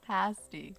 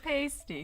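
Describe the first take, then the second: First: It is said the way locals pronounce it. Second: It is said the way outsiders pronounce it. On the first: The speaker knows the food. The speaker calls it right. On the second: The speaker does not know the food. The speaker calls it wrong. "people who don't know what a pasty is, oftentimes they say pasties, but no"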